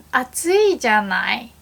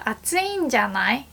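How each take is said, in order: First: 暑いじゃない said with no ん, as "atsui janai"; 暑いじゃない without the small ん. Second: 暑いんじゃない with a clear ん before じゃない; 暑いんじゃない with the ん heard. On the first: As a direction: drop the ん from 暑いじゃない. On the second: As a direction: sound the small ん in 暑いんじゃない. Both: Shown as a demonstration. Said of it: "are completely different".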